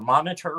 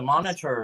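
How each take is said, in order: First: The final R sound is dropped. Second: The final R sound is clearly pronounced. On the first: "she can't say R's. Like the people in England don't say their R's" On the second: "it's a monitor"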